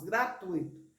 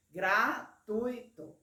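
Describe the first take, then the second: First: Said in the usual way. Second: "Gratuito" bem devagar, em três emissões de voz; separado em sílabas. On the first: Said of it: "pela palavra gratuito". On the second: Shown as a demonstration. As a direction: divida "Gratuito" em três sílabas, com tui junto. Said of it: "Você tem três emissões de voz". ("Gratuito" pausado, sílaba por sílaba)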